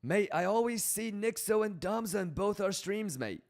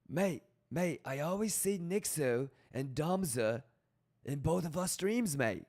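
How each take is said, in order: First: British accent, higher and pushed harder; hammed-up British accent, pitched up; stronger British accent. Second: British accent that slips toward Australian; a shaky British accent that drifts Australian; mock British accent. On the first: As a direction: go a little bit more British. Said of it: "I gotta go a little bit more British". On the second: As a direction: try a British accent, landing half Australian. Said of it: "That was more Australian than British". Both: Shown as a demonstration.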